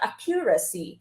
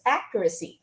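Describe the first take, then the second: First: The stress falls on a later syllable. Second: The stress is on the first syllable. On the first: The speaker calls it wrong. "not accuracy" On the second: The speaker calls it right. "you pronounce this as accuracy"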